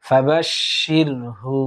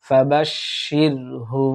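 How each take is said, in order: Both takes have the same delivery.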